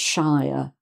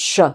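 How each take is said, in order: First: The word is said with a full vowel. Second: The word is said with a weak, reduced vowel. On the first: The word stands on its own. "if you say the word shire on its own, ... it's pronounced shire" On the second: The word ends a county name. "when it's added on the end of an actual county name, it's pronounced sh"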